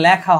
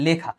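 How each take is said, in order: First: লেখা said with an open 'lækha' vowel, the wrong way; wrong pronunciation. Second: লেখা said with a clear 'e', as 'lekha'; correct pronunciation. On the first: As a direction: say লেখা as 'lækha', the form to avoid. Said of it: "এটা হবে লেখা". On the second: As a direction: keep the e in লেখা unchanged, 'lekha'. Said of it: "এখানে কিন্তু এটা লেখা হবে না". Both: Shown as a demonstration.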